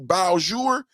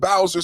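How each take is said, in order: First: The name is said with a French-style pronunciation. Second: The name is said with an English-style pronunciation. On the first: The speaker calls it right. "They said it's Beaujour because, you know, it's French" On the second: The speaker calls it wrong. "Yesterday I was saying Bowser City"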